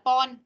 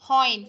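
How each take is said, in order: First: The vowel is a short plain O without gliding. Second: The vowel glides from a rounded O to I. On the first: The speaker calls it wrong. "không phải là pon" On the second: The speaker calls it right.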